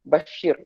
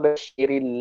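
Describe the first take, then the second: First: The final r is said with no vowel after it. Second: The final r carries a short i vowel, linking on. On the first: "ra itu adalah ra sukun" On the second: "kita bariskan ra itu di baris kasrah"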